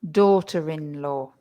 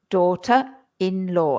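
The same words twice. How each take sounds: First: An R sound links 'daughter' to 'in'. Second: No R sound between 'daughter' and 'in'. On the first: The speaker calls it right. "the R appears again in the pronunciation" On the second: The speaker calls it wrong. "If we don't pronounce the R"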